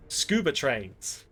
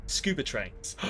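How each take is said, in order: First: Gasp, then slow, hushed Scuba trains; gasped revelation. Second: Said in the usual way. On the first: Shown as a demonstration. Gamer unveiling the film title in dramatic slow awe. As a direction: announce Scuba trains like a grand discovery. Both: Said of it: "That's the name of the film".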